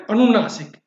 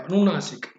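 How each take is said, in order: First: अनुनासिक called out louder; emphatic term. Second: Said in the usual way. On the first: Shown as a demonstration. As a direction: announce अनुनासिक firmly for the class. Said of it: "तो इसको क्या बोलते हैं?". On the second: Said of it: "ध्यान रखिएगा इसका नाम क्या है".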